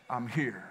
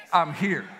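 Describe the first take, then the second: First: "I'm here" dropped low and much softer; hushed reassurance. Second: Said in the usual way. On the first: Acted. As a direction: let "I'm here" fall to a near hush. Repeated reassurance, fading.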